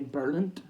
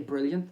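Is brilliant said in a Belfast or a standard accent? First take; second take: Belfast; standard. First: It is said in a Belfast accent, like Berlint. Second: It is said in a standard, non-Belfast accent. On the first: "like Berlin with a T in the end" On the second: "They don't say brilliant"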